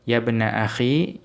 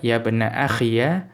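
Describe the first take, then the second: First: The last word ends in a plain 'i'. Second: The last word ends in 'iya'.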